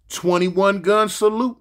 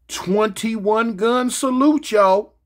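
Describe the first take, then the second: First: Said in the usual way. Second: Slow, stretched build-up; slow announcing, every word drawn long; drawn-out announcement. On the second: Acted.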